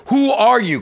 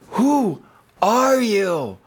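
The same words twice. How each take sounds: First: High, loud bewildered cry; all caps email. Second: Slow, drawn out, awed question; drawn out wonder. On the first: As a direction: shout it like question marks. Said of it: "question marks, exclamation points". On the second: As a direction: stretch it out in wonder. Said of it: "I wrote this thing going". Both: Retold or imitated.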